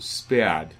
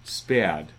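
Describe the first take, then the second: The two takes are said the same way.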